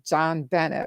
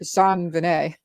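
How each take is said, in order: First: The name is said with an English pronunciation. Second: The name is said with a French pronunciation. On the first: The name was misread from print. The speaker calls it wrong. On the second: This is how people actually say the name. The speaker calls it right.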